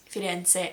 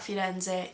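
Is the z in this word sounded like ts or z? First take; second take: ts; z. First: The middle consonant is a ts sound. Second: The middle consonant is a buzzing z sound. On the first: The speaker calls it right. "that Z sound is actually a T S" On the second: The speaker calls it wrong. "like with a very American Z"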